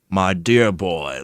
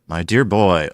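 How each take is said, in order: First: It is said in an exaggerated put-on accent. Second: It is said in the speaker's natural accent.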